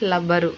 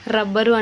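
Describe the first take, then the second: First: The word begins with an l sound. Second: The word begins with an r sound. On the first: The speaker calls it wrong. "లా పెట్టేసి లబ్బరు అని పలుకుతున్నారు" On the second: The speaker calls it right. "రా తీసేసి"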